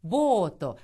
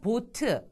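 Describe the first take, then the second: First: It has a long vowel and ends in 'o'. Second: It is short and ends in a 'eu' vowel. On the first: This is how the Japanese say the word. "일본에서는 보토, 보토. ... 길게 발음합니다" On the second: This is how Koreans say the word. "우리는 그냥 보트, 보트라고 하지만"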